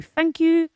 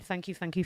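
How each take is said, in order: First: Higher, louder thank you burst out. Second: Softer, murmured thank you, thank you. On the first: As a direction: belt the final thanks. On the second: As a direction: drop it down to a murmur. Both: Real, not acted.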